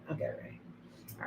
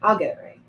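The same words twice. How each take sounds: First: Slow whisper to herself; slow private whisper. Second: Said in the usual way. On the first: Real, not acted. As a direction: whisper the promise slowly under her breath. Repeats a promise, then whispers it.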